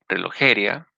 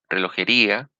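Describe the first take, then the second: First: The stress is on the third syllable, je. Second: The stress is on the fourth syllable, ri. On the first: "o en la E" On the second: "o en la I"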